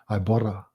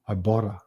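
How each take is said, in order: No difference in how they are said.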